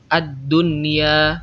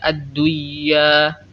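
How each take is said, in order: First: The n sound is pronounced clearly before y. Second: The n sound is merged into the y. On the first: The speaker calls it right. "dibaca izhar, dibaca jelas" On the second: The speaker calls it wrong. "bukan dibaca ad-duya"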